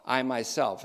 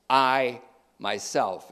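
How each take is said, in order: First: Said in the usual way. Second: "I" drawn out slowly, set apart from "myself"; emphatic I. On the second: Shown as a demonstration. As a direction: lean on "I", pause, then "myself". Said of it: "It's emphatic".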